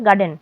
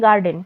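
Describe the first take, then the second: First: The r sound before the d is silent. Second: The r sound before the d is pronounced. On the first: The speaker calls it right. "এটা হবে গার্ডেন" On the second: The speaker calls it wrong. "আমরা সবাই বলে থাকি গার্ডেন"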